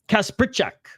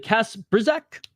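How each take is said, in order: First: The middle is said with a ch sound. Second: The middle is said with a plain z sound. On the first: "the Z is pronounced sometimes as a ch" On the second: "How do I pronounce it?"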